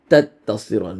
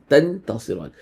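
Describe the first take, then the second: First: The n sound disappears into the t. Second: The n sound is pronounced fully and clearly. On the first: "إدغام, it becomes تتصران, because the noon sign just disappears" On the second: "If you were to read it with uh, إظهار"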